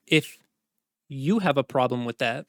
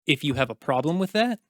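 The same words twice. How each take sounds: First: Long pause after "If", then "you" leaned on; single out "you" after a hanging "If"; stress on YOU. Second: Said in the usual way. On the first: Acted. Commander challenging knight, "you" stressed after a pause.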